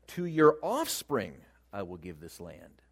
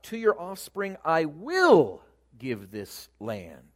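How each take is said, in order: First: The stress is on "offspring". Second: The stress is on "will".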